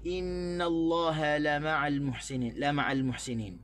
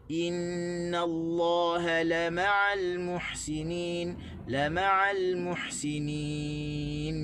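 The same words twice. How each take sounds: First: Wrong stress on "la ma'al muhsinin"; common wrong stress. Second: Slow chanted "la ma'al", weight on "ma'al"; slow tajwid reading of "la ma'al muhsinin"; correct recitation stress. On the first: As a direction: stress on la in "la ma'al", as usually misread. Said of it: "kita biasa sebut". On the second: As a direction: stretch "ma'al" slowly, lam kept light. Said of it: "sebenarnya kita kena baca". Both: Shown as a demonstration.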